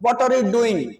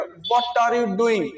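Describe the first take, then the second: First: Said in the usual way. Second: What are you doing said very slowly, word by word; slow what are you doing right down for repeating; slow pronunciation. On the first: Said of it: "आप मेरे साथ repeat करिएगा". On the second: Shown as a demonstration. Teacher slowly modelling what are you doing for students. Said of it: "pronunciation कैसे करना".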